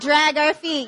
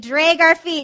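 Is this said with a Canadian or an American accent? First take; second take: American; Canadian. First: The vowel is said in an American way. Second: The vowel is said in a Canadian way. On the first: "not drag our feet" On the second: "We drag our feet"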